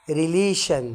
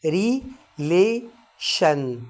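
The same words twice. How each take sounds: First: Said in the usual way. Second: Relation split slowly into syllables; relation, each syllable drawn out very slowly. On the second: Shown as a demonstration. (نطق relation ببطء مقطعًا مقطعًا) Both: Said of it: "هاخدها على كذا مقطع".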